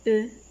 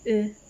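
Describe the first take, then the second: The two takes are said the same way.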